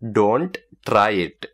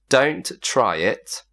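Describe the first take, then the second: First: It is said with an Indian accent. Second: It is said without an Indian accent.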